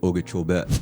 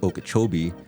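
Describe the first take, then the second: First: It uses the Native, tribal pronunciation. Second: It uses the common English pronunciation. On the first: This is how the tribe says the name. "For us, proper pronunciation would be Okeechobee" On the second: This is how most people say the name. "Everybody says Lake Okeechobee"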